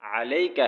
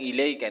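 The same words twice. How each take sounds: First: अलैका with a clear a and ain; अलैका, firm and loud; correct ain with a. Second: इलैका with initial i; इलैका, wrong vowel; wrong i sound. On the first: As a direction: stress अलैका starting on a. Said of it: "अलैका है". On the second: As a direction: begin इलैका with i instead of a. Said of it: "इलैका नहीं है". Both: Shown as a demonstration.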